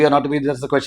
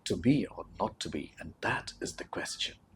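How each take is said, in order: First: It is said plainly, without drama. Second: It is said dramatically, with strong emotion.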